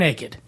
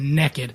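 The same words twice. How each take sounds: First: The word is said in a standard accent. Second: The word is said in a Southern accent.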